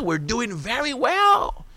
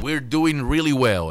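First: Mock gleeful. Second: Said in the usual way. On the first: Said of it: "los trompitos". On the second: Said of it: "repeats the Trump clip".

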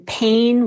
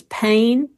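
First: Said in the usual way. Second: PAIN drawn out with a regional vowel shift; older regional vowel. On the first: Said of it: "and pain was pain". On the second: Shown as a demonstration. Linguist showing how pain used to sound, regional pronunciation. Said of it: "was a little bit more like".

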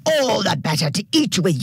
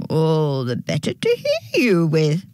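First: Mild storybook yell in an altered voice; dingo's yell. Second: Lightly put-on granny answer; fake grandma voice. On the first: Dingo drops the disguise to eat the girl, mild character yell. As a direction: burst out as the hungry dingo. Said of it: "yelled the dingo". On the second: Dingo in bed fools the girl, light fake granny voice. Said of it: "trying to sound like a grandma". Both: A narrator's reading.

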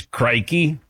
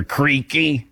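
First: "Crikey" with a long i as in "like"; Aussie nickname. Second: "Creaky" with a long ee in place of long i; mistaken nickname. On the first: Host giving the colleague's nickname, "Crikey" with long i. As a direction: say "Crikey" to rhyme with "spiky". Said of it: "Crikey, if it's, if, you know, Aussie". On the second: Host giving the garbled nickname, "Creaky" with long ee. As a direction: say "Creaky" like a creaky door. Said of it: "keeps calling him Creaky". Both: Shown as a demonstration.

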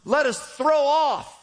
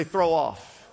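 First: "throw" lifted high and drawn out slowly; stress on throw off. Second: Said in the usual way. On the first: Shown as a demonstration. Preacher modeling the phrase before the crowd repeats it, stretched. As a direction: lean hard into "throw off" for the congregation. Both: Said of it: "Everybody say".

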